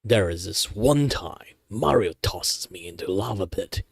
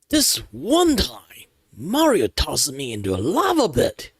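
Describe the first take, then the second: First: It is said flatly, with little emotion. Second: It is said with more emotion.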